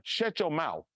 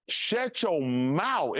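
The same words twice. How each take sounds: First: Said in the usual way. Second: Slow, deliberate, heavy on each word; slow emphatic warning. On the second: Shown as a demonstration. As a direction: Shut your mouth drawn out very slowly, every word weighted. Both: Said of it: "repeated as advice".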